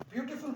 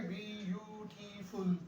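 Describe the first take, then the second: First: Said in the usual way. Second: ब्यूटीफुल drawn out slowly, sound by sound; broken into sounds. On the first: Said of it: "आप क्या करेंगे?". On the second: Shown as a demonstration. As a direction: break ब्यूटीफुल into slow, separate syllables. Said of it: "Break words down into sounds". (ब्यूटीफुल को धीरे-धीरे, आवाज़ों में तोड़कर)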